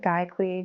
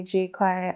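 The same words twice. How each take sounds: First: "Guy Clay" with first syllable like "guy"; alternative pronunciation. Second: "G Clay" with first syllable like the letter G; alternative pronunciation. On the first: Unsure how to say the print shop's name, trying pronunciation "Guy Clay". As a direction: say "Guy Clay", rhyming the start with "eye". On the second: Unsure how to say the print shop's name, trying pronunciation "G Clay". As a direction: say "G Clay", starting with a "jee" sound. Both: Shown as a demonstration. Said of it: "I don't know how to say it".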